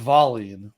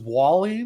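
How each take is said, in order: First: The name begins with a V sound. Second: The name begins with a W sound. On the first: This is how it is said in Sweden. The speaker calls it right. "but Sweden it was Wallin" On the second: This is how many fans said it. The speaker calls it wrong. "people thought it was Wallin because it was W"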